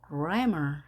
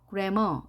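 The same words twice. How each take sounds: First: The first syllable is high, the second low. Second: Both syllables are said at one flat pitch. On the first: The speaker calls it right. "grammar 해야지 정확하게 발음이 되는 겁니다" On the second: The speaker calls it wrong. "우리말처럼 높낮이가 없이 grammar 이렇게 하는 것이 아니라"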